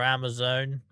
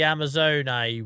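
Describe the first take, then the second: First: The word ends on the n, without a vowel. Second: A final E sound is heard after the n. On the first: "or Amazon?" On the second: "I say Amazone. I don't know if I'm supposed to be pronouncing the E like that"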